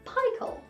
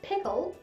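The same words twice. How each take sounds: First: The first vowel is a long I sound. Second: The first vowel is a short I sound. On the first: The speaker calls it wrong. "that should be a long I sound" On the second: The speaker calls it right. "the I vowel sound is a short sound"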